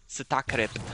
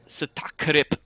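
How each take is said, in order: First: The word is pronounced in a natural way. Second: The word is pronounced in an exaggerated way.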